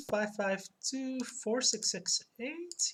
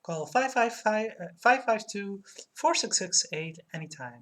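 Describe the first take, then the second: First: Slow, questioning rise on each group; feeling your way back to the number; unsure recall. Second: Ad phone number. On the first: Real, not acted. Streamer checking the number with chat, unsure questioning tone. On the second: Acted. Streamer reading the limo ad's number, commercial-style read. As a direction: spell out the number for the listener, ad style.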